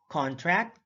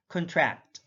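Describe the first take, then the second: First: CONtract, full open CON; careful demo of CONtract; stress on first syllable. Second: ConTRACT, weak first syllable; careful demo of conTRACT; stress on second syllable. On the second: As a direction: hit the TRACT in "contract". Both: Shown as a demonstration. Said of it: "stress is the verbal emphasis used".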